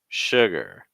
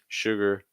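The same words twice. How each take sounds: First: The second syllable drops lower in pitch. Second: The second syllable stays level in pitch. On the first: The speaker calls it right. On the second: The speaker calls it wrong.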